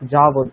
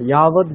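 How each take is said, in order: First: The word begins with a 'j' sound. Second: The word begins with a 'y' sound. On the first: The speaker calls it wrong. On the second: The speaker calls it right.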